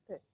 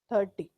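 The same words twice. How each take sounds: First: The t and r sounds are said lightly. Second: The t and r sounds are forced heavily. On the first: The speaker calls it right. "It's ten, twenty, thirty" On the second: The speaker calls it wrong. "That makes your pronunciation Punjabi"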